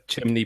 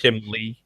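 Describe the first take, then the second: First: The word is said with an N sound. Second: The word is said with an L sound. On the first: The speaker calls it right. "learn to say the word chimney properly" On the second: The speaker calls it wrong. "I was pronouncing it chimney with an L"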